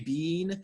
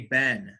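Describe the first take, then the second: First: It is said in a British accent. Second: It is said in an American accent. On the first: "British people say been" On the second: "American people say been"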